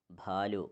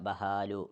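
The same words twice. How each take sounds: First: ഭാലു with a breathy aspirated bh, one syllable bhaa; ഭാലു with a heavy aspirated start; aspirated bha. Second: ബഹാലു with a separate ഹ, ba-ha-lu; ബഹാലു said as ba then ha, the wrong way; wrong reading. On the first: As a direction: thicken the ബ into ഭ, ഭാലു. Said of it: "കട്ടി കൂട്ടുകയാണ് വേണ്ടത്". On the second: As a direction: split the ബ and ഹ into two syllables, ബഹാലു. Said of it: "പക്ഷേ ഇവിടെ എന്ത് ചെയ്യാൻ പാടില്ല". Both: Shown as a demonstration.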